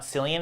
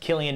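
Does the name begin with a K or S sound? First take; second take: S; K. First: The name begins with an S sound. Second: The name begins with a K sound. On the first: The speaker calls it wrong. "not Cillian" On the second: The speaker calls it right. "You say it's pronounced Killian"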